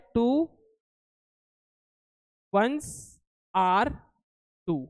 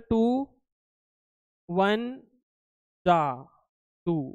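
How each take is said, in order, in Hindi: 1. 'Ones are' को दो साफ़ शब्दों की तरह बोला गया है। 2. 'Ones are' आपस में जुड़कर 'van ja' बन जाता है। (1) "एक्चुअल में ये होता है" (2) "ये तुमने फ्लो में ऐसा बना दिया, वो गलत उच्चारण कर रहे हो"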